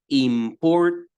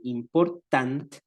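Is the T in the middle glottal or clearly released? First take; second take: glottal; released. First: The middle T is a throaty glottal stop. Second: The middle T is clearly released. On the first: "el nativo dice important, mm, ... un sonido que sale como de, de la garganta" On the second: "hay algunas personas que dicen important"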